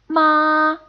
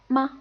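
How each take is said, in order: First: The pitch stays high and level throughout. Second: The syllable is short, light and unstressed. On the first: "a high, even, and constant tone" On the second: "the neutral tone is pretty much the unstressed word"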